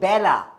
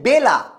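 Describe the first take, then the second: First: The first vowel is a distorted, open e sound. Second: The first vowel is a plain e sound. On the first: The speaker calls it right. "আমরা কি বলি বেলা" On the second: The speaker calls it wrong. "আমি কিন্তু বলি না যে বেলা"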